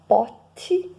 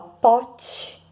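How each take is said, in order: First: The t is a plain t before i. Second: The t sounds like ch before i. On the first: "Quem fala pote só muda o i e e" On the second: "tem que mudar o i em e e saber que o T C H deverá ser escrito apenas com a palavra T"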